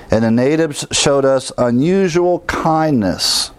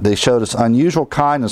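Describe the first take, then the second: First: "unusual" drawn out slowly and raised; scripture read with a lift on "unusual"; emphatic reading. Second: "unusual" stressed, quicker and plainer; quicker restatement stressing "unusual"; restated lightly. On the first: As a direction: read it slow, leaning on "unusual kindness". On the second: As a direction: repeat the phrase, tapping "unusual". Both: Shown as a demonstration. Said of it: "Notice that".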